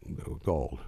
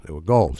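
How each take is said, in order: First: Said in the usual way. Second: They were gold with gold pushed louder; stressed gold. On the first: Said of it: "They were gold, see?". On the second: Shown as a demonstration. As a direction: hammer home the word gold.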